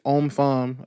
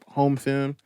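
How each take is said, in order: First: The name starts with a vowel, no h sound. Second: The name starts with a clear h sound. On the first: This is how French people say it. "The proper French way to pronounce it is om om femme" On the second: This is how it is said in American culture. "but in America, amongst our culture"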